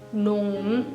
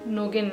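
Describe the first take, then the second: First: No g sound is heard mid-word. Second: A hard g sound is heard mid-word. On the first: The speaker calls it right. "जी का साउंड नहीं आना चाहिए" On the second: The speaker calls it wrong. "नोगेन नहीं कहना है"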